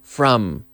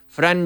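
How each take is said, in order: First: The word ends with an m sound. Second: The word ends with an n sound. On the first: The speaker calls it right. "practicing the letter M" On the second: The speaker calls it wrong. "We don't say Fran"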